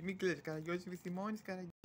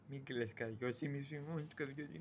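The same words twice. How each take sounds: First: Very soft soothing, lifted in pitch; soft consoling. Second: Low, very soft soothing; soft consoling. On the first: Consoling the unpaid servant Karagiozis, softly. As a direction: repeat the comfort gently, pitched up. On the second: Consoling the unpaid servant Karagiozis, softly and low. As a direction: hush it low, like comfort. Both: Acted.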